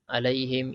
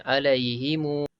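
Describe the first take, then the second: First: It ends on m with no vowel after. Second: A long, drawn-out u follows the final m. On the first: "Wajah pertama matikan je" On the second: "empat harakat pula"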